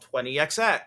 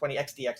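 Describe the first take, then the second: First: The letters are said as ex, ex. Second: The letters are said as ex, dee, ex.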